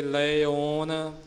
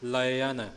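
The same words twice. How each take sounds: First: ਲਇਓਨ said slowly as la-i-on, long open o; careful model of ਲਇਓਨ with a rounded o; open "o" ending. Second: ਲਇਨ said la-i-an, short a after the i; careful model of ਲਇਨ as la-i-an; short "a" ending. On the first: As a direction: draw out the o in ਲਇਓਨ. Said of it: "ਖੁੱਲ੍ਹੇ ਮੂੰਹ ਵਾਲਾ ਊੜਾ". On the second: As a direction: sound out ਲਇਨ with no "o". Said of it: "ਈੜੀ ਸਿਹਾਰੀ ਅੱਗੇ ਐੜਾ ਹੈ". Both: Shown as a demonstration.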